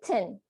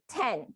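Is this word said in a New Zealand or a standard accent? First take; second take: New Zealand; standard. First: The word is said with a New Zealand vowel. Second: The word is said with a standard vowel. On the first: "they say ten" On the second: "they don't say ten"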